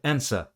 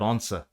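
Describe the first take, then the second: First: The vowel is said with a Canadian accent. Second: The vowel is said with a British accent. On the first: The speaker calls it wrong. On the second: The speaker calls it right.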